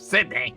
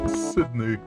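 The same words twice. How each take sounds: First: It is said in a plain, normal voice. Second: It is said in a put-on posh voice. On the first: "Instead of" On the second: "with a fancy voice"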